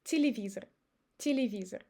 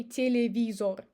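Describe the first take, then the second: First: Телевизор as ti-li-VEE-zer; reduced unstressed E. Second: Телевизор as te-le-VEE-zor; unreduced vowels. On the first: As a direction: say Телевизор with E as i, final O as uh. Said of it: "we pronounce it as И". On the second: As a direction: say телевизор with full E and round O. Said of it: "I don't say". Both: Shown as a demonstration.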